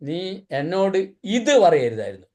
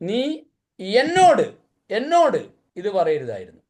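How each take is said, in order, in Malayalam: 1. ഇത് എന്ന വാക്കിലാണ് ഊന്നൽ. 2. എന്നോട് എന്ന വാക്കിലാണ് ഊന്നൽ. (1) "ഇത് പറഞ്ഞുകൊണ്ട പ്രശ്നം" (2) "എന്നോട് പറഞ്ഞുകൊണ്ട പ്രശ്നം അല്ലേ?"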